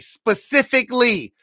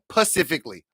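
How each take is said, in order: First: The word begins with an s sound. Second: The word begins with a p sound. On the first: The speaker calls it right. "let's everybody say it with me" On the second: The speaker calls it wrong.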